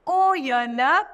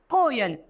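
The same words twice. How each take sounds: First: कोयल with a loud, clear ओ; louder stressed ओ. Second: Said in the usual way. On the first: Shown as a demonstration. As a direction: lead the word कोयल loudly on ओ. (कोयल को ओ पर ज़ोर देकर ज़ोर से) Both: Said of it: "बन जाएगा को".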